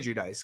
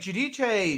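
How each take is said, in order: First: The name is given an American pronunciation. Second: The name is given an Italian pronunciation.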